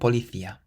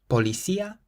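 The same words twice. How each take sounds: First: The c is sounded like a th. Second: The c is sounded like an s. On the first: "or a T H" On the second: "you can pronounce it either like an S"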